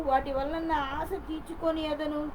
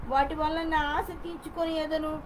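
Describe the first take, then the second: No difference in how they are said.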